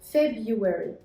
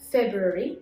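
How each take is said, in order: First: The first R is not pronounced. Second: The first R is clearly pronounced. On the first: "R here is silent" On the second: "ننطق فيه حرف ال R"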